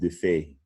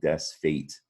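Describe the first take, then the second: First: It sounds French, 'day-fay', with no s. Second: It sounds like English 'dez fate', with an s. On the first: "but the French pronounce it défait" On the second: "It looks like des fate"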